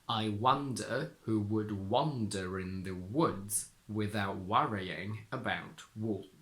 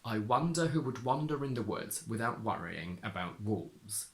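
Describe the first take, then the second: First: The sentence is read more slowly. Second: The sentence is read at a normal pace.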